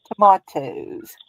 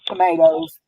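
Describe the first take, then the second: First: Tomatoes said slowly with a broad British "mah" vowel. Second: Said in the usual way. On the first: Shown as a demonstration. Crafter picking up British crime-show words, British tomato pronunciation. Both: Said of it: "I catch myself saying words like they say 'em".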